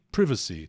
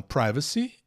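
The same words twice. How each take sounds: First: Privacy as "PRIV-a-si", short I; British short I in privacy; British pronunciation. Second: Privacy as "PRAI-va-si"; long I like "eye" in privacy; common pronunciation. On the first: Teacher gives the British alternative, short-I pronunciation. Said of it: "no inglês britânico você pode ouvir". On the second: Teacher models the version heard in both countries, common pronunciation. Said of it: "tanto nos Estados Unidos quanto na Inglaterra". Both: Shown as a demonstration.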